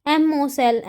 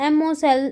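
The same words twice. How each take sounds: The two takes are said the same way.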